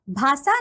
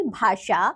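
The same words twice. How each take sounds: First: भाषा with "s" in place of "sh"; mispronounced भाषा. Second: भाषा with a clear "sh"; correct भाषा. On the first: Teacher showing children a wrong form, mispronounced. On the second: Teacher giving children the right form, correctly pronounced. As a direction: say भाषा carefully as "bhaasha". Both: Shown as a demonstration. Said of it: "नहीं".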